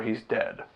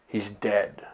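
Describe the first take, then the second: First: Soft, falling, as if breaking bad news; a quiet hint of the wife's dread; hushed dread. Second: Hushed dread. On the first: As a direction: let the words drop quietly, like the worst news. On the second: Retold or imitated. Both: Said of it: "That's exactly how she said it".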